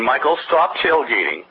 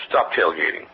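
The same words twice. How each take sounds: First: Said in the usual way. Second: A lower, firmer "Stop tailgating"; firmer repeated warning. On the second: Retold or imitated. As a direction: drop the pitch and insist on "Stop tailgating". Repeating the warning more firmly.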